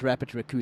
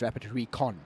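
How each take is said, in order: First: The second word sounds like 'raccoon'. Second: The second word sounds like 'recon'. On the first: The speaker calls it wrong. "It's not Rapid Raccoon" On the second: The speaker calls it right. "It's Rapid Recon"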